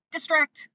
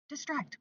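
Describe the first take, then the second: First: Emphatic. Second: Distract said again much softer, almost to herself; soft repeat. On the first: Coach telling parents the key word, loud and emphatic. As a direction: punch it out higher and louder. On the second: Coach echoing her advice to parents, soft. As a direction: let the word Distract fall quietly. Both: Shown as a demonstration. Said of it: "Distraction is one of the best".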